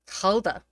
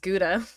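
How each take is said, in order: First: The word starts with a breathy H-like sound. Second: The word starts with a hard G sound. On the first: The speaker calls it right. "that's how you pronounce it" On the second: The speaker calls it wrong. "I definitely thought it was Gouda"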